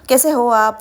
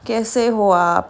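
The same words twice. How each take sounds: First: The phrase is spoken at normal speed. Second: The phrase is spoken very slowly. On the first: "वैसा नहीं" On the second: "एकदम slow बात करना कैसे हो आप ऐसा"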